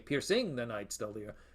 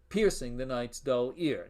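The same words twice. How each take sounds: First: Piercing is stressed on its second syllable. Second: Piercing is stressed on its first syllable. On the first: The speaker calls it wrong. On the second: The speaker calls it right.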